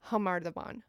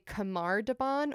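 First: The first sound is a breathy, H-like noise. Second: The first sound is a hard, non-breathy consonant. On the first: The speaker calls it right. "it's pronounced Khamar Daban. Like an H noise" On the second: The speaker calls it wrong. "a lot of them will say Khamar Daban"

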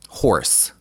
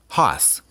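First: The word is said with a clear r sound. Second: The word is said with no r sound. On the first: "The word is horse" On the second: "In Boston, people don't do R's ... they'll say hoss"

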